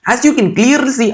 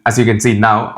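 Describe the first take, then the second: First: High-pitched, hammed-up Indian accent; exaggerated Indian English, pitched way up. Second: Said in the usual way. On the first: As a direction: ham up a comic Indian accent. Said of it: "I don't have an Indian". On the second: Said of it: "to something like this".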